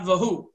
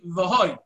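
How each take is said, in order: First: The last syllable has an 'oo' vowel. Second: The last syllable has an 'o' vowel. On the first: The speaker calls it wrong. "not Vahu" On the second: The speaker calls it right. "We pronounce Ani Vahoy"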